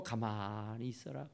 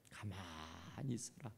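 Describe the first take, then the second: First: 가만히 있어라 low and soft with a rise at the end; preacher softly echoing Moses' command; calm command. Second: Slow, much lower and softer command to be still; Moses calming the people. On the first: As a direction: repeat Moses' words quietly. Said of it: "그 말이에요". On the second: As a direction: hush the frightened crowd gently. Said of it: "모세가". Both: Retold or imitated.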